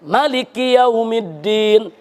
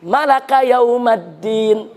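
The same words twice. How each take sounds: First: "Maliki" with short first vowel, slowly recited; short mim reading. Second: "Malaka" with a-vowels throughout, slowly recited; made-up verb-form reading. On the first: Preacher showing a valid Quran reading, "Maliki" with short mim. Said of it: "Ada yang dipendekkan". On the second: Preacher showing a forbidden self-made reading, "Malaka yaumaddin" with a-vowels. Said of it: "mau bikin qiraat sendiri". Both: Shown as a demonstration.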